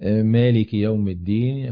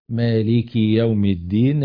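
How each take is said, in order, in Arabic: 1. تبقى الحركات بطولها الطبيعي. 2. تُمدّ الحركة القصيرة مدًا طويلًا جدًا.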